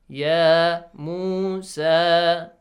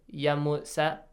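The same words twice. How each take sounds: First: The vowels are held long. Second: The vowels are cut short. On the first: The speaker calls it right. "So three long vowel sounds" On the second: The speaker calls it wrong. "it's wrong. Because long vowels are pronounced as short vowels"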